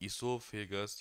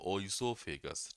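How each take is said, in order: First: The word begins with an 'ee' sound. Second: The word begins with an 'oy' sound. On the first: "दोनों pronunciation सही है" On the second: "दोनों pronunciation सही है"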